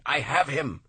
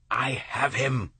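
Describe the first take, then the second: First: Higher, louder second call of capture; triumphant cry. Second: Slow, raised triumphant call; triumphant cry. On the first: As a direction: crow it out again in triumph. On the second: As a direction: shout your capture. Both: A narrator's reading. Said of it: "Lowell cried".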